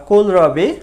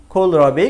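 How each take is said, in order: First: কোলরাবি with an unaspirated K at the start; plain K sound. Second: কোলরাবি opened with a breathy KH; aspirated KH sound. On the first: Teacher offering learners the first option, কোলরাবি with plain K. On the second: Teacher showing the native option, কোলরাবি with KH. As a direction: say কোলরাবি as khol-rabi, aspirating the K. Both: Shown as a demonstration. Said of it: "কেটাকে সাধারণত খ উচ্চারণ করে".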